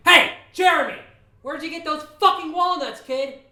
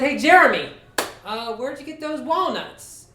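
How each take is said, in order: First: High, furious shout across a distance; angry yell. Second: Casual questioning. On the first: Angry neighbour yells at kid across the street, furious. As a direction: yell it out, pitch and volume way up. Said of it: "I got really angry, and I yelled out". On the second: Man pulls up beside neighbour kid to ask, casual questioning. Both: Retold or imitated.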